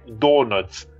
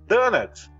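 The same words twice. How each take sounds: First: The first vowel is a rounded 'oh' sound. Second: The first vowel is an open 'ah' sound. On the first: The speaker calls it right. "tem que ter o O redondinho no donuts" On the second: The speaker calls it wrong. "como sotaque brasileiro... Tipo um da"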